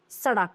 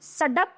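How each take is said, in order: First: सड़क with a flapped "ड़"; lower, falling सड़क said as "saṛak"; correct pronunciation. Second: सड़क with a hard "ड" stop; rising सड़क said as "sadak"; hard d in सड़क, pitched up; wrong pronunciation. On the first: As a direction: flick the tongue for ड़ in सड़क. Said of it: "right है". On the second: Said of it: "ये wrong है". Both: Shown as a demonstration.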